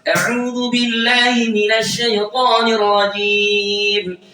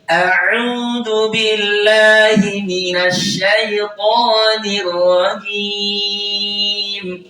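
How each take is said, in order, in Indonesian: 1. Frasa ini dibaca dengan tempo sangat cepat. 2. Frasa ini dibaca dengan tempo sedang. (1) "ritme yang super cepat" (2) "kalau saya baca sedang"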